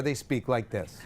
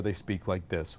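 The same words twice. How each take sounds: First: Closed-throat everyday voice. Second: Very low, soft, open-throated chest voice; on-air announcer voice. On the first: Teacher shows announcers off the air, closed-throat voice. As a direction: talk through a closed throat. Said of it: "When they're off the air". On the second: Teacher shows announcers on the air, deep open-throated voice. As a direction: drop deep into a radio chest voice. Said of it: "When they're on the air". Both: Shown as a demonstration.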